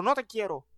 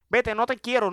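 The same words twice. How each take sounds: First: No te quiero dropped softer, trailing off; softer repeat. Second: Said in the usual way. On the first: Acted. Repeating the brush-off to a happy person, softer. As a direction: let it fade as you turn away. Shooing away happy people.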